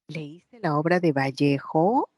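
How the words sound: The pitch rises at the end. It asks a yes-or-no question. "la inflexión es ascendente"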